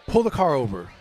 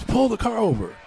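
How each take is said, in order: First: Said in the usual way. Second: Mock yell. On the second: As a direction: retell a mother's insistent order with pitch raised. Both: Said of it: "And then she yells".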